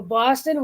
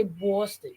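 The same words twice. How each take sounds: First: Said in the usual way. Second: Boston as "BAW-ston", rounded vowel; mocked Boston accent. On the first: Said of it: "whenever people wanna make fun". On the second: Quoting people who make fun of the accent, Boston as "BAW-ston". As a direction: turn the first vowel of Boston into "aw". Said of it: "make fun of the Boston accent".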